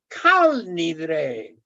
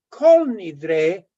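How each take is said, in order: First: The first word has an 'a' vowel. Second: The first word has an 'o' vowel. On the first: The speaker calls it right. "es kal nidre" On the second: The speaker calls it wrong. "no es kol nidre"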